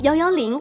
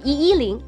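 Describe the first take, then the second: First: The digit one is pronounced yao. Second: The digit one is pronounced yi. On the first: The speaker calls it right. "读成110" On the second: The speaker calls it wrong. "而不是110"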